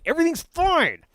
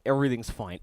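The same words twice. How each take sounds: First: Much higher, louder mock-panicked cry. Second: Said in the usual way. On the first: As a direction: squeak it out in fake alarm. Mock-panicked reprise of line.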